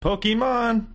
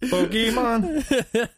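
First: Higher, drawn-out hype announcer voice; mock trailer voice saying Pokemon. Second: Very slow, higher hype voice with a laugh; laughing mock trailer voice; mock announcer, laughing. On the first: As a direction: sell the name like a cheesy ad. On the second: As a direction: stretch Pokemon out like a cheesy ad, cracking up. Mocking Pokemon announcer.

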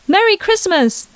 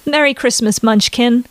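First: Put-on high, bright little-girl Merry Christmas, hitting Merry; a four-year-old bursting with Christmas joy; excited child. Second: Cheerful on the surface, sleepy underneath; forced chirpiness. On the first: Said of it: "the little girl exclaimed". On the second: Acted. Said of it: "she exclaimed back, as chirpy as she could".

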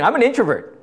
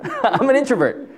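First: Said in the usual way. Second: Chuckling at his own claim; real laugh in the words. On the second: Real, not acted. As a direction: say it through a laugh. Repeats it through a laugh.

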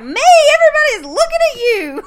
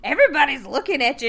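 First: Much higher and louder, laughing through it; loud retort. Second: Said in the usual way. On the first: Retold or imitated. Rose snaps back at her boyfriend, loud and high, laughing. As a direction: fire it back loudly, half laughing. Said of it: "talking loud to him". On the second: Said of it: "and he's like".

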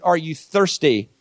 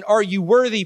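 First: Slow, "thirsty" stressed with a falling tune; slow it down and land on "thirsty"; "Are you thirsty?" offered as the new invitation; contrast thirsty. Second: "worthy" stressed with a falling tune; "Are you worthy?" said as the stern old question; contrast worthy. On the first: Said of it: "to an "Are you thirsty?" paradigm". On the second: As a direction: lean on "worthy" as the old test. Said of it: "from an "Are you worthy?" paradigm". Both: Shown as a demonstration.

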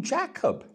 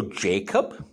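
First: "Jacob" with a short open A, as in "Jack"; soft A. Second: Said in the usual way. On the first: Shown as a demonstration. Minister showing how Zambians said it, "Jacob" with a soft A. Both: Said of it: "people liked soft A's".

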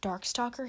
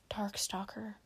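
First: "Darkstalker" with a rising questioning tune; voiced "Darkstalker" as a question, rising. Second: Hushed, voiceless whisper; very soft whisper. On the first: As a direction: ask "Darkstalker" back, lifting the end. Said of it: "he asked". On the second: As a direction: whisper the name under your breath. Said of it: "Firebolt whispered". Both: A narrator's reading.

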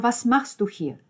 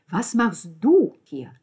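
First: Said in the usual way. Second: Slow, loud retort leaning hard on "du"; stress on DU. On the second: Acted. Alessandro turns the question on Lucia, "du" stressed hard. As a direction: throw it back, drawing out "du".

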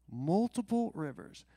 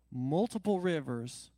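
First: "multiple" said higher and louder; stress on multiple, higher. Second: Multiple 힘주어; stress on multiple. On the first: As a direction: push "multiple" up in pitch. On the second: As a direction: lean on multiple. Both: Acted.

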